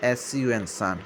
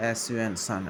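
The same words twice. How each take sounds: The two takes are said the same way.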